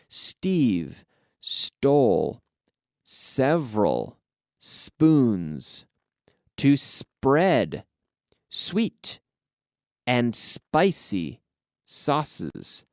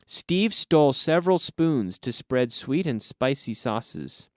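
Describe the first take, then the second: First: The sentence is spoken at a slow pace. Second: The sentence is spoken at a faster pace. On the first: "I'll say it slowly" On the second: "then I'll say it at a little bit faster"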